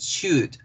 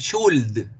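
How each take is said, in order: First: The L sound is silent in the word. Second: The L sound is pronounced in the word. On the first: The speaker calls it right. "es should, should. La L no suena" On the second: The speaker calls it wrong. "no es should"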